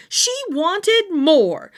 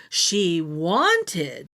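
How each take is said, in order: First: "wanted" stretched slow and high, loud; stressed. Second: "wanted" dropped low and plain; lower repeat. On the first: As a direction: lean hard on "wanted" and drag it out. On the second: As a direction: let "She wanted" fall low before the list. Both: A narrator's reading.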